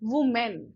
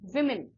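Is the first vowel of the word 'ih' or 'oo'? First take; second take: oo; ih. First: The first vowel sounds like 'oo'. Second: The first vowel sounds like 'ih'. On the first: The speaker calls it wrong. "बहुत लोग क्या बोलते हैं?" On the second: The speaker calls it right. "विमेन होता है"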